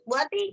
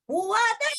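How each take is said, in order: First: The name is called short, as if nearby. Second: The name is called longest, as if far. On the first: The person being called is close. "Kalau dekat" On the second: The person being called is farther still. "Lagi jauh lagi dikit"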